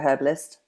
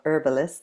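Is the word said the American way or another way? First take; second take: another way; American. First: It is said in a non-American way. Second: It is said the American way.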